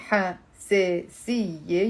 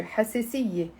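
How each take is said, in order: First: حساسية split slowly, ha, se, si, ye; overly careful حساسية with gaps between syllables. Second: حساسية run together in one quick word; faster, natural flow. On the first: Teacher showing how nobody says it live, slow syllables. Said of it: "when you're saying it in live". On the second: Teacher showing how it's said live, faster. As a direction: say حساسية smoothly, no gaps between syllables. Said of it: "You're gonna say it faster". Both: Shown as a demonstration.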